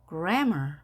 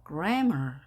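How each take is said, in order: No difference in how they are said.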